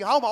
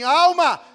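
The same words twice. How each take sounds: First: It is said fast. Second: It is said slowly.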